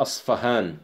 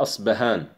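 First: أصفهان with a clear f; f spelling. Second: أصبهان with a clear b; b spelling. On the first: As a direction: say أصفهان with f in the middle. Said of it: "بعضهم يعربها أصفهان". (أصفهان بالفاء) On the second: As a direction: say أصبهان with b in the middle. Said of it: "بعضهم يعربها أصبهان". (أصبهان بالباء) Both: Shown as a demonstration.

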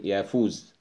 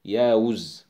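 First: يافوز with f, yafuz. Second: ياوز with w, yawuz; with waw. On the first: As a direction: say يافوز with an f sound. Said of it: "يقول يافوس". (يافوز بالفاء) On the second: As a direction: say ياوز with a w sound. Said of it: "تكتب بالواو". (ياوز بالواو) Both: Shown as a demonstration.

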